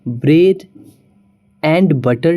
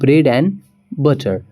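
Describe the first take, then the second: First: The word 'and' is said in full. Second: The word 'and' is reduced to 'n'. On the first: The speaker calls it wrong. "नहीं बोलना है" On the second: The speaker calls it right. "एंड को सिर्फ एन pronounce करना होगा"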